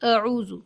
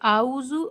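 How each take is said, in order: First: The first vowel is kept short. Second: The first vowel is drawn out long. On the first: The speaker calls it right. "पहले हर्फ को बिल्कुल भी नहीं खींचना है" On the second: The speaker calls it wrong. "आ में गलती है"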